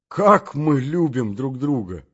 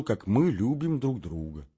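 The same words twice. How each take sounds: First: Slower, louder outcry; exclaimed. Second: Said in the usual way. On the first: Acted. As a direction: cry the words out, moved. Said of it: "закричал я". (громкое, медленное восклицание) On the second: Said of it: "Я хочу, чтоб он видел".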